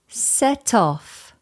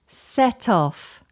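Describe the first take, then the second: No difference in how they are said.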